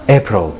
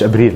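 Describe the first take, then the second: First: It is pronounced with English sounds. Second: It is pronounced with Egyptian Arabic sounds. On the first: The speaker calls it right. "لا April" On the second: The speaker calls it wrong. "مش أبريل"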